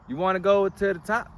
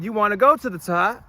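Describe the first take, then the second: First: It is said in a plain, straight manner. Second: It is said in a silly, goofy manner.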